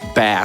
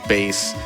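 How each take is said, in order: First: The vowel is short, rhyming with 'mass'. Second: The vowel is long, rhyming with 'case'.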